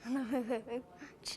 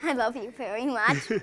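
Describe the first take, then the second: First: Giggling through the words, half-hearted; giggly, no conviction. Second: Firmer, steadier retake, no giggling; with more conviction. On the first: Boy asked to tell his parents he loves them, giggling shyly. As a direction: laughs it out instead of meaning it. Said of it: "You gotta say that with a little more, uh, conviction". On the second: Boy repeating to his parents, now with conviction. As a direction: say it like you mean it this time. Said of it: "with a little more, uh, conviction". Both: Real, not acted.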